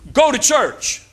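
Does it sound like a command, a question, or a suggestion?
command. It is said as a firm, forceful order. The speaker is ordering you to go. "it's a command"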